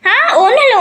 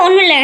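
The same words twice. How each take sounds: First: Giggly, rising "ஒண்ணும் இல்ல" covering up; nervous laugh denial. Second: Said in the usual way. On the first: Pretend. Caught out, denies to villain.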